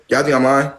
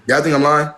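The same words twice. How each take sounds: The two takes are said the same way.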